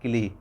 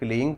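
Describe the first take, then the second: First: The word ends without a nasal sound. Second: The word ends with a nasal sound. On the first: "वो बाद में वैसे भी silent हो जाता है, सिर्फ क्ली क्ली रह जाता है" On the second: "जो अंगा का साउंड होता है या अम का साउंड होता है"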